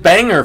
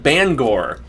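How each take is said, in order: First: The name is said the way an outsider says it. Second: The name is said the way locals say it. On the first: This is how the speaker used to say it. "I called it Banger for the longest time" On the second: This is how local residents say it. "people in Maine and they call it Bangor"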